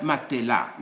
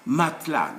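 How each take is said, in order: First: "matelas" as ma-te-la; wrong, e pronounced. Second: "Matelas" as mat-la; t straight into l in "Matelas"; silent e. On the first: Teacher showing the wrong French form, e sounded. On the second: Teacher modelling the right French form, e silent. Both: Shown as a demonstration. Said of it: "not matelas".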